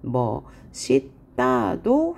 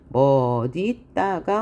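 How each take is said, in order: First: The middle consonant sounds like s. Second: The middle consonant sounds like d. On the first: This is an allowed alternative pronunciation. "허용" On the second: This is the standard pronunciation. "원칙이지만"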